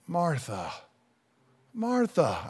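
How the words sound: It is said in a gentle, compassionate tone.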